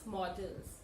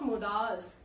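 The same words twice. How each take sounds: First: "models" as MOD-uls, short and weak second vowel; "models" pronounced MAW-duls; corrected pronunciation. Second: "modals" with a full vowel in the second syllable; mispronounced modals. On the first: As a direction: say "models" with a reduced second syllable. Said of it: "people tend to pronounce it as". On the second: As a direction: say "modals" as mo-DAALS, the mistaken way. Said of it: "This is not modals". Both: Shown as a demonstration.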